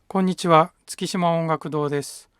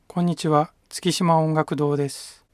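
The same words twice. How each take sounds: First: The voice is fairly loud and full. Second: The voice is at medium loudness. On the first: "大きめな普通の声で喋ってみます" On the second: "中くらいの声で喋ってみます"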